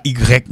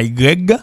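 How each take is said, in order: First: "Y" said as "i grèk", ending in k; rejected pronunciation. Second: "Y" said as "i grèg", ending in g; wrong pronunciation. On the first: Teacher rejects this version too, "Y" as ee-grek. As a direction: say "Y" as ee-grek, hard final k. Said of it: "c'est pas Y non plus". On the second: Teacher warns learners off the deformation, "Y" as ee-greg. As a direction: say "Y" as ee-greg, voiced final g. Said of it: "c'est pas Y". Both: Shown as a demonstration.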